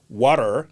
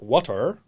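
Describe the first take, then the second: First: It is said with an American accent. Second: It is said with a non-American accent. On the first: "American because I pronounce the word water" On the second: "not water"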